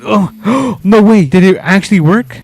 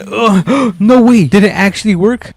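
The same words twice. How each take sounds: First: Gasping, pitch jumping up; sudden disbelief, gasp then ask; surprised gasp. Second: High gasp, can't believe it; gasp, then ask in disbelief; surprised gasp. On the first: Tow strap finally pulls free. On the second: Truck pulls free second try. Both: Real, not acted.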